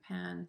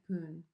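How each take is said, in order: First: The syllable has a short 'a' vowel sound. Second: The syllable has an 'oo' vowel sound. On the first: The speaker calls it right. "It's not poon but pan, says the poet. Short A" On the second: The speaker calls it wrong. "which I pronounce poon like poon"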